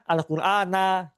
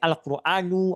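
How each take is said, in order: First: The word ends with a short a vowel. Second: The word ends with a short u vowel. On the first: "atau apa? Al-Qur'ana gitu" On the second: "Tapi bisa jadi Al-Quranu"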